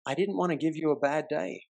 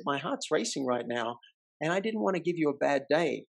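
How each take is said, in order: First: Softer, sincere apology; gentle reassurance. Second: Softer, open and sincere; vulnerable reveal. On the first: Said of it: "I said to her". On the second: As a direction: lay your heart bare gently. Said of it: "I revealed". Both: Retold or imitated.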